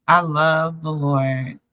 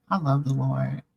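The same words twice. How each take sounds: First: I love the Lord drawn out slow, each word leaned on; slow heartfelt emphasis. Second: Said in the usual way. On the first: Real, not acted. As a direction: testify it slowly, meaning every word. Repeats declaration, slower and firmer.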